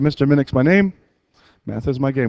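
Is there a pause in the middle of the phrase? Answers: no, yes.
yes. It is said with a short pause inside. "with a little pause in it"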